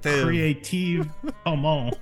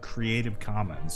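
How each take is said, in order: First: It is said in a French accent. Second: It is said in a plain English accent.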